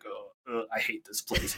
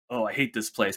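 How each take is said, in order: First: It is said in a hurt, strained voice. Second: It is said in a healthy, normal voice.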